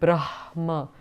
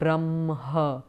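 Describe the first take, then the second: First: It keeps the sounds in their written order. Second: It uses the altered traditional sound order. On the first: The speaker calls it right. "if it is written in that way in Sanskrit, it's because there is a logic in it" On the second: The speaker calls it wrong. "in the tradition, they tend to pronounce it as Brahma"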